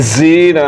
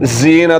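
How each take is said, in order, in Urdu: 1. پہلا حرف سیٹی بجانے والی z آواز ہے۔ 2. پہلا حرف سیٹی بجانے والی z آواز ہے۔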